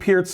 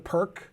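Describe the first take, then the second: First: The name is not said like perk. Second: The name is said like the word perk. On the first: This is the usual accepted pronunciation. The speaker calls it right. "I think Pearce is considered the most uh, normal way of pronunciation" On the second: This is how lower-rated American players say it. The speaker calls it wrong. "most Americans who are lower rated call it the perk"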